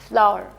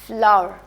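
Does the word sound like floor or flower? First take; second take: flower; flower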